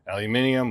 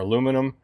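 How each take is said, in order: First: The word is said the British way. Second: The word is said the American way.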